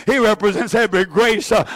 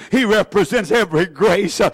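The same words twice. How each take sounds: The two takes are said the same way.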